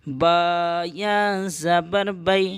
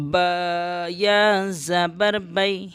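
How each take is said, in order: First: Slow spelling ending on بی; slow teacher spelling of بی; slow spelling again. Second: Slow syllable-by-syllable spelling. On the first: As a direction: draw out the spelling, land on بی. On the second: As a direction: spell each letter out slowly. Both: Shown as a demonstration. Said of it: "یا لین کو جلدی پڑھتے ہیں".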